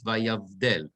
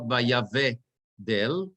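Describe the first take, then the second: First: Vayavdel said slowly with the right stress; correct stress. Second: Vayavdel said the wrong way, stress misplaced. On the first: Teacher models the correct reading for students. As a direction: model the proper vayavdel, slow. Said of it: "It's vayavdel". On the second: Teacher shows students the wrong reading, drawn out. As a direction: show the mistaken vayavdel. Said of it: "It's not vayavdel". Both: Shown as a demonstration.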